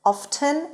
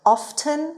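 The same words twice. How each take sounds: Both takes have the same delivery.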